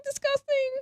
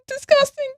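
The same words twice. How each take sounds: First: High breathy fade; soft disgusted. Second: Squeaky disgusted; high mock disgust. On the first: Pretend. Repeat fading to whisper.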